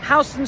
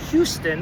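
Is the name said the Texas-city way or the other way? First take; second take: other way; Texas-city way. First: It is said unlike the Texas city name. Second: It is said like the Texas city name. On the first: It names the street in New York City. "It's not pronounced like the city in Texas" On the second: It names the city in Texas. "like the city in Texas"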